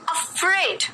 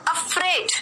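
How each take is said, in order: No difference in how they are said.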